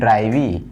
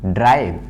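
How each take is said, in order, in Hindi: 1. शब्द के अंत में एक अतिरिक्त 'ee' स्वर है। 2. शब्द के अंत में 'v' व्यंजन है।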